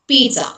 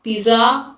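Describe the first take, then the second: First: The middle consonant is a ts sound. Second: The middle consonant is a plain z sound. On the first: The speaker calls it right. "instead of one Z, assume T" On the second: The speaker calls it wrong. "It is not pizza or something that many people pronounce"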